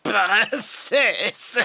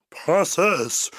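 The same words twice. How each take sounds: First: High sneering knight, drawn out; sneering panto villain. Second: Put-on heroic young prince calling out; gallant prince. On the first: Acted. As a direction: sneer the name like a stage villain. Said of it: "ricane-t-il". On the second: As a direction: call her like a brave prince.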